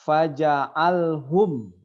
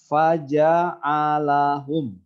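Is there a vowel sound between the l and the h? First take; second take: no; yes. First: The l is closed with no vowel after it. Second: A vowel is sounded between the l and h. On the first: The speaker calls it wrong. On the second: The speaker calls it right.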